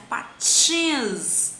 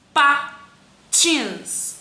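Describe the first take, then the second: First: PATINS with a long drawn-out TINS; stretched stressed syllable. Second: PATINS in two loud, separate syllables. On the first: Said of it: "A sílaba tônica dela é tins". (patins com o "tins" bem alongado) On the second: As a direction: split patins into pa, tins with a pause. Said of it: "Aqui eu tenho a palavra". (patins separado em sílabas, com pausa) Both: Shown as a demonstration.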